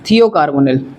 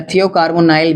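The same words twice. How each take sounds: First: कार्बोनिल ending in a short "nil"; carbonyl with short -il. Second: कार्बोनाइल ending in a long "nile" glide; carbonyl as "-nile". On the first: Teacher giving students the name thio carbonyl, short -il ending. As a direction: say कार्बोनिल with "-nil", not "-nile". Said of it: "या थियो कार्बोनाइल भी कहते हैं". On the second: Teacher showing the variant many people use, -nile ending. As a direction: say कार्बोनाइल to rhyme with "mile". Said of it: "भी कहते हैं कई सारे लोग". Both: Shown as a demonstration.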